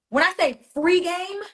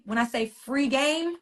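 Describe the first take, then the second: First: "free" punched higher and louder, drawn out; emphatic repeat. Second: Said in the usual way. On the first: Real, not acted. To her live viewers, stressing "free" hard. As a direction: hammer the word "free" in the repeat.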